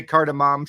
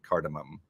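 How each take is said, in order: First: "cardamom" ending in a clear "mom"; full "mom" ending. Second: "cardamom" ending in a reduced "mum"; Alexa's pronunciation. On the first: Shown as a demonstration. Retelling the attempt with Alexa, "cardamom" ending like "mom". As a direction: give "cardamom" an open "ah" in the last syllable. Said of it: "tried to get her to say". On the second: Retold or imitated. Quoting Alexa's refusal, "cardamom" ending like "mum". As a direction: say "cardamom" with a weak final vowel. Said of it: "Nope, I pronounce it".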